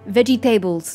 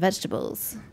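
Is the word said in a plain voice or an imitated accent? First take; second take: imitated accent; plain. First: The word is said in an imitated accent. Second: The word is said in a plain voice.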